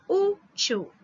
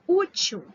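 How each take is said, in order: First: "útil" separated, with a strong high Ú; Ú then til in "útil", first part stronger; split into syllables. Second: Said in the usual way. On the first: Shown as a demonstration. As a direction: split "útil" in two, stressing the Ú.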